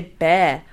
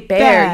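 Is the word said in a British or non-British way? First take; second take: British; non-British. First: The word is said in a British way. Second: The word is said in a non-British way. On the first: The speaker calls it right. "you say bear" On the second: The speaker calls it wrong. "you don't say bear"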